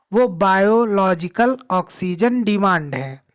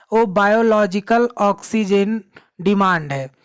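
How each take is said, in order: The two takes are said the same way.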